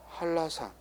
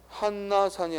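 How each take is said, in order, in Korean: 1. 두 번째 음절은 l 소리로 시작해요. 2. 두 번째 음절은 n 소리로 시작해요. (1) "라로 쓴다" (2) "아니라"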